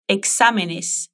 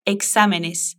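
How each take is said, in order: First: Exámenes spelled out slowly, syllable by syllable; slow model. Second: Said in the usual way. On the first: Shown as a demonstration. Teacher slowly models exámenes for the student to repeat. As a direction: stretch exámenes out for the learner.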